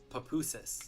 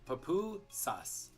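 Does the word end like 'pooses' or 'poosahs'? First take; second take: pooses; poosahs. First: The word ends with an English 'pooses' sound. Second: The word ends with a Spanish 'poosahs' sound. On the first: The speaker calls it wrong. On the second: The speaker calls it right.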